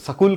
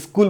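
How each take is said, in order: First: It is said with a Punjabi-style pronunciation. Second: It is said with a local regional pronunciation. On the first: This is how Punjabi speakers say it. "Punjabi लोग स्कूल कहते हैं" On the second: This is how people around here say it. "हम लोग स्कूल बोलते हैं"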